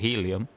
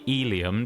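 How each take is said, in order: First: The word starts with an H sound. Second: The word starts without an H sound. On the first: The speaker calls it right. "Instead of helium" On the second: The speaker calls it wrong. "You don't say helium, do you?"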